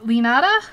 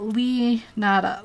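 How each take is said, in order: First: "Lee Nada" run together, rising as a question; tentative, joined-up "Lee Nada?" with questioning rise; checking a pronunciation. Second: "Lee Nada" in separate parts, pause after "Lee"; careful "Lee ... Nada" as written down; name sounded out. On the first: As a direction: ask "Lee Nada?" louder, lifting at the end. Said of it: "Is that how you say it?". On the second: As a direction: read out "Lee Nada" piece by piece. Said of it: "uh, I wrote Lee Nada". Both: Shown as a demonstration.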